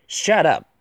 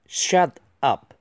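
First: Said in the usual way. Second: "shut up" in two separate words; careful, separated model reading of "shut up"; slow word-by-word. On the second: Shown as a demonstration. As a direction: split "shut" and "up" with a clear gap. Slow model reading, then faster repeat.

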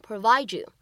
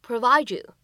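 First: Provide you with d and y merged into a j sound; assimilated provide you. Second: Provide you with d and y merged into a j sound; "provide you" as provi-ju, a touch louder; assimilated provide you. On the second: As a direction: provide you blended to provaɪdʒu. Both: Shown as a demonstration. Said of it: "音的同化的处理".

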